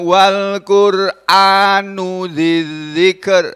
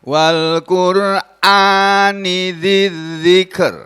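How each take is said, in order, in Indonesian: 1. Kata Qur'an berakhir dengan vokal 'u'. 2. Kata Qur'an berakhir dengan vokal 'i'. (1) "itu artinya lain" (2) "ini di kasroh huruf terakhirnya, ini artinya demi Al-Qur'an"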